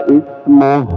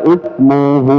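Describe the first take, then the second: The two takes are said the same way.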